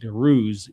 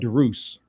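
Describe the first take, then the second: First: The name ends with a buzzing z sound. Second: The name ends with a hissing s sound. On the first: This is how it was said in the historical period. "for the historical period, it would be pronounced Deruze with a Z" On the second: This is how people say it today. "modern people, the name exists, call it Derus"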